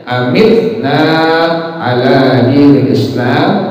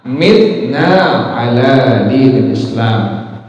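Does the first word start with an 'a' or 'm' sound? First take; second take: a; m. First: The first word starts with an a sound. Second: The first word starts with an m sound. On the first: "Ada a-nya" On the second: "tanpa a"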